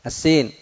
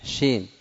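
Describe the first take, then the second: First: السين said with a plain hissed s; clear S sound. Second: الشين said with sh in place of s; soft-spoken الشين, opening on a sh; SH sound. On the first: Teacher models the letter seen against sheen, crisp s sound. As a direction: say السين with s, never sh. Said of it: "ليست الشين". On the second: Teacher shows students the wrong substitute for seen, sh sound. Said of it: "لا تبدل السين". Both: Shown as a demonstration.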